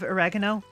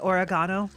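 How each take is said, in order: First: The word is said in a plainer, ordinary pronunciation. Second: The word is said in a fancier-sounding pronunciation. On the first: "instead of oregano" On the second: "it's fun to say oregano"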